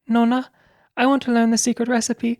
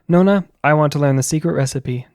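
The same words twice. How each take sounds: First: It is read in a put-on Italian accent. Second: It is read in the speaker's ordinary voice. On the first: "I'm not doing a very good Italian accent" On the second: "I'll just read it like my normal manly voice"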